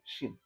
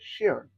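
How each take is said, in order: First: The word ends with a plain n sound. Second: The word ends with an added r sound. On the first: This is how speakers from Taiwan say it. "in Taiwan, we just say shin" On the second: This is how speakers from mainland China say it. "added like kind of like an R sound at the end"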